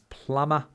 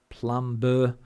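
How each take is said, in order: First: The B in the word is silent. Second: The B in the word is pronounced. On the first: The speaker calls it right. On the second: The speaker calls it wrong.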